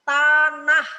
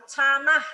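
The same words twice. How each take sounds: First: Tanah with a clean t, said loudly; tanah, loud and distinct, t not ch; correct articulation. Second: Canah, with ch in place of the t of tanah; wrong articulation. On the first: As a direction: hit a clear t at the start of tanah. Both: Shown as a demonstration. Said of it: "bukan canah".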